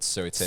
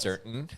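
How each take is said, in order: First: The word is said with a British accent. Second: The word is said with an American accent. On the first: "I still retain certain words, like I just said" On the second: "as opposed to"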